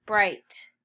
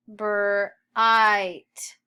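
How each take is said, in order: First: Said in the usual way. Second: Bright split into brr, long I, T; sounded out. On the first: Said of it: "Read bright". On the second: Shown as a demonstration. Teacher models sounds before reading, sounded out. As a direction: loudly sound out Bright with gaps.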